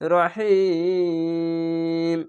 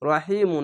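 First: The word stops on 'm' with a lengthened vowel. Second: The word ends with a short 'oo' vowel. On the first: The speaker calls it right. "রহিম বলে থামতে হবে" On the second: The speaker calls it wrong. "রহিমু না বলে"

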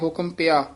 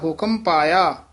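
First: The second word is said as short 'pia'. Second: The second word is said as long 'paia'. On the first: The speaker calls it wrong. "ਪਿਆ ਕਹਿ ਜਾਂਦੇ" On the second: The speaker calls it right. "ਤੇ ਪਾਇਆ ਹੈ"

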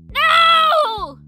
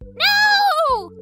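First: The voice sounds hard and harsh. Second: The voice sounds clean, without grit.

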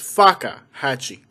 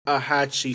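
First: The word has a break after the k sound. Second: The word is said smoothly without a break. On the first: The speaker calls it wrong. "But not like, it's Fakahatchee" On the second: The speaker calls it right. "I know it's the Fakahatchee Strand"

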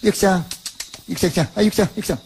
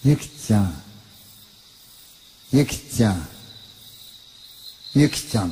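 First: The calls vary in timing and manner. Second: The calls have identical tempo and spacing.

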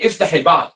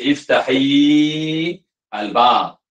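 First: The two words run together without a pause. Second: There is a pause between the two words. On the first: The speaker calls it right. "Nak baca non-stop" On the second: The speaker calls it wrong. "Okey, nampak berhenti"

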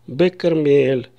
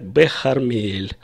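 First: The city name begins with a hard k sound. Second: The city name begins with a raspy kh sound. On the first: This is how everyone actually says it. "И так все скажут" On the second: This is the formal norm that you will not hear. "по нормам формального языка нужно сказать"

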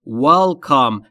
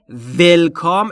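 First: The first sound is made with rounded lips. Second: The first sound is made without rounded lips. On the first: The speaker calls it right. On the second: The speaker calls it wrong. "پس تلفظ welcome اشتباهه"

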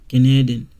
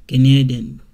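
Both takes have the same delivery.

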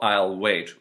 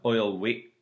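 First: The final t is fully released. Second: The final t is a glottal stop.

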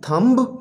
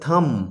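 First: The b after m is pronounced. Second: The b after m is silent. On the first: The speaker calls it wrong. "थंब नहीं" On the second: The speaker calls it right. "क्योंकि M के बाद बी है... silent करते हैं"

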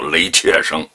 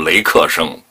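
First: The middle syllable is pronounced qie. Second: The middle syllable is pronounced ke. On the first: The speaker calls it wrong. "不叫雷切生" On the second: The speaker calls it right. "他叫雷克生"

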